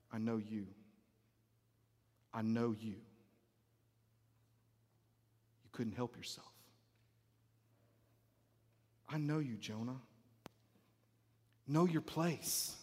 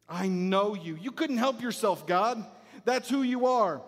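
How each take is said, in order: First: Very low, hushed, with long pauses; quietly knowing God. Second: Emphatic, exasperated reproach; accusing Jonah. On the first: God quietly answering Jonah's accusation, hushed and knowing. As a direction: answer softly with calm authority. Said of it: "And yet God is like". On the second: Jonah reproaching God for being merciful, accusing. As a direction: throw God's nature back at him. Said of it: "Jonah says". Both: Acted.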